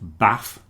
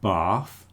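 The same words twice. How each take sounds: First: It is said in a non-Southeast England accent. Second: It is said in a Southeast England accent. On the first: "not bath or bath" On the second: "with the Southeast England pronunciation"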